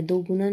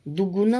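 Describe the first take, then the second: First: दोगुना starting with do; wrong pronunciation. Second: दुगुना starting with short du; correct pronunciation. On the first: Teacher showing the error, दोगुना with do. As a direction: round the first vowel of दोगुना to o. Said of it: "नहीं होता". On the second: Teacher giving the correct word, दुगुना with du. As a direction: keep u in the first syllable of दुगुना. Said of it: "होता है". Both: Shown as a demonstration.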